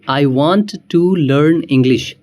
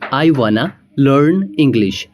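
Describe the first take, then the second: First: Want to is said as two full words. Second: Want to is reduced to wanna.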